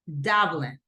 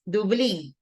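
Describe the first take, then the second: First: The stress is on the first syllable. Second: The stress is not on the first syllable. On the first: This is the English pronunciation. "The syllable stress goes in the first one ... but in English, Dublin" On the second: This is the Spanish pronunciation. "In Spanish, it's Dublin"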